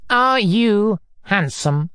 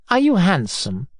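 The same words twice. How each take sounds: First: ARE YOU drawn out slowly, higher, then handsome; slow, heavy demand on "are you"; insistent repetition. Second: Said in the usual way. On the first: Acted. Repeats question, demanding an answer.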